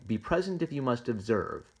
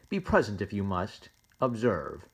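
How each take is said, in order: First: It runs on without a pause after 'must'. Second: It has a break after 'must' before 'observe'. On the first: Presence is allowed if observing is required. "He could be saying" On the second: Observe starts a separate thought. "this is a separate thought"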